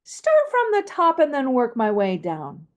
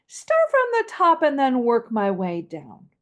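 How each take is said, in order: First: Falling pitch line; descending melody. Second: Walk the voice down to the bottom; descending melody. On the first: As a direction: begin on top and step downward. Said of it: "Now, descending". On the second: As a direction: gradual downward glide. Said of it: "Once again". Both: Shown as a demonstration.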